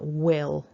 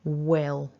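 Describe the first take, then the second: First: It begins with w and a short vowel. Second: The same.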